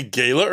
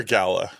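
First: "gala" with a long A, GAY-luh; first variant. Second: "gala" with a short A, GAL-uh; second variant. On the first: Host offering co-host a choice, "gala" as GAY-luh. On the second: Host offering co-host a choice, "gala" as GAL-uh. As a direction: say the first syllable of "gala" like "gal". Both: Shown as a demonstration. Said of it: "Do you say gala or gala?".

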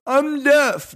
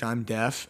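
First: High, loud sudden claim; pretend outburst. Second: Softer, mumbled fake claim; quiet pretend claim. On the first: Shopper shutting down a salesman, loud mock blurt. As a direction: blurt it out to shut him down. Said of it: "just went". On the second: Shopper faking deafness to a salesman, quiet. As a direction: say it quietly, playing innocent. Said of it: "Be like".

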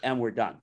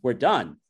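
First: Understated, final sign-off; unsmiling dismissal. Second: Retold puzzled repeat, firmer than a statement; taken-aback echo. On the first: Retold or imitated. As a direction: end it without a smile. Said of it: "I didn't smile". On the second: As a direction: echo the words back in disbelief. Vendor echoes the dismissal back.

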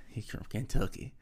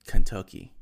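First: Said in the usual way. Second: Kentucky boomed out, first syllable stretched long; proudly belting out Kentucky, stretched. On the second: Acted. Stretched proud Kentucky, then laughs.

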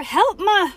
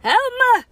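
First: High, loud storybook cry; cry for help. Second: "Help ma!" wailed very high and loud; high wailing cry for help. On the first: Acted. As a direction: call out a dramatic plea for help. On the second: Shown as a demonstration. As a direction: wail "Help ma!" like calling for rescue. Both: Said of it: "how does that look like a sound".

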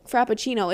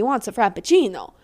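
First: Said in the usual way. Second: Frappuccino with a hint of an Italian lilt; accidental Italian accent. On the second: Real, not acted. Ranting about guys at Starbucks, accidental Italian accent. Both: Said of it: "Why did I say that in an Italian accent".

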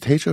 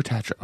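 First: Tatro said TAY-tro; first option, Tatro with the vowel of "day"; long-a pronunciation. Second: Tatro said TAT-ro; second option, Tatro with the vowel of "cat"; short-a pronunciation. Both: Retold or imitated. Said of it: "everyone says".

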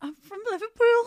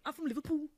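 First: Hesitant Scouse try, higher and louder; nervous go at a Scouse voice; Scouse accent. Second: Scouse accent. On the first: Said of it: "Do I have to". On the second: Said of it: "Do you wanna practice?". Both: Shown as a demonstration.

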